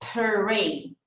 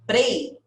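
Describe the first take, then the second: First: The r is a smooth English r. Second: The r is a quick Portuguese tap. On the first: The speaker calls it right. "Lembra que o P e o R vai ter esse pr" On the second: The speaker calls it wrong. "ao invés de prei, que é o que talvez a gente teria dito"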